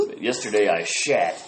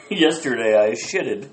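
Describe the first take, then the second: First: "shat" dropped low with a falling finish; stress on shat. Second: Said in the usual way. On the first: Shown as a demonstration. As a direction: land "shat" low and final, like the punchline. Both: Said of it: "I will be shitting in the future".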